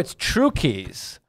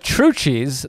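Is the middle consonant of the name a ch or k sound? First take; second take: k; ch. First: The middle consonant is a k sound. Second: The middle consonant is a ch sound. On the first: The speaker calls it right. "the true key to shopping. And so we were like, no, it's Trukey's" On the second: The speaker calls it wrong. "Everybody called it Trucci's. This always bothered me"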